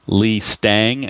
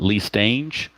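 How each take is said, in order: First: The surname rhymes with Mustang. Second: The surname does not rhyme with Mustang. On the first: The speaker calls it right. "as in Mustang" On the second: The speaker calls it wrong. "not Lee Stange"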